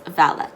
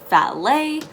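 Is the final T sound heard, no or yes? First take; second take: yes; no. First: The word ends with a clear T sound. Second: The word ends without a T sound. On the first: The speaker calls it wrong. "not to pronounce it as valet" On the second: The speaker calls it right. "the T is silent"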